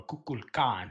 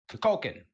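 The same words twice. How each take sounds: First: Kukulkan said as "koo-kool-KAHN"; alternative pronunciation. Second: Kukulkan said as "kuh-KOH-kun"; casual pronunciation. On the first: Host offering another way to say the name, Kukulkan as "koo-kool-KAHN". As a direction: sound out all of Kukulkan, full "oo" vowels and an open "kahn". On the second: Tier-list host naming the next god, Kukulkan said "kuh-KOH-kun". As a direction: say Kukulkan with a reduced first syllable and "koh" in the middle. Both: Shown as a demonstration. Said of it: "however you wanna pronounce his name".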